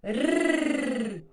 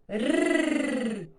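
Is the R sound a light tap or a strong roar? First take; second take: light tap; light tap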